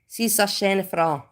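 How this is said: The words are clipped and chopped in Austrian style. "And in Austrian, you would say, ... you chop them up"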